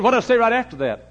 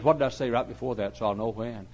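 First: High, loud retold demand; loud insistent question. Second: Said in the usual way. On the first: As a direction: press the question much louder. Louder second question in retold exchange.

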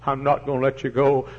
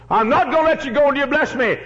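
First: Said in the usual way. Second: High, loud pleading Jacob; desperate cry. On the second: Acted. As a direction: hold on and refuse to let go. Jacob wrestling the angel.

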